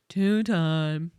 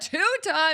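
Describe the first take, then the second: First: It is said in a flat, sneering way. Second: It is said with lively, celebratory enthusiasm. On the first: The title is treated as unimpressive. "What what is with the tone and two-time?" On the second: The title is treated as a great achievement. "you came in dancing and say"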